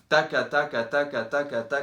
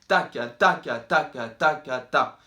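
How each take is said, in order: First: All syllables are equally loud and even. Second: Every ta is louder than each ka. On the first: The speaker calls it right. "bien régulier" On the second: The speaker calls it wrong. "quand on fait ta, ça peut être plus fort"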